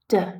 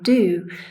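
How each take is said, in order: First: It is said quickly with a reduced vowel. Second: It is said with a full, clear vowel. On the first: "but in the weak form it becomes d" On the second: "has this strong form"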